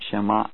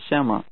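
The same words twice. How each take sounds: First: The last syllable is said with a full tone. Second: The last syllable is said without a tone. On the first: The speaker calls it wrong. "and not shema" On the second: The speaker calls it right. "it is pronounced without a tone and is shema"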